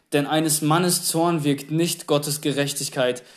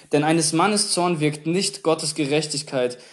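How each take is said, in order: No difference in how they are said.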